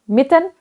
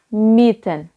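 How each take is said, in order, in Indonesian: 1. Vokal i pendek. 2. Vokal i panjang. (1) "bukan cuma mieten" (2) "I-nya banyak jadi panjang"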